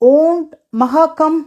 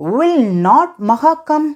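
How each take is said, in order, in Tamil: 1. எதிர்மறை ஒரு சுருக்கிய சொல்லாகச் சொல்லப்படுகிறது. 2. எதிர்மறை இரண்டு முழுச் சொற்களாகச் சொல்லப்படுகிறது.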